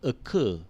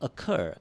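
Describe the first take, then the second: First: The second vowel is a short, weak schwa. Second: The second vowel is a long, full 'er' sound. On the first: "If you put a schwa on the second vowel, you will get" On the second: "if you put uh, the ein over there, you get"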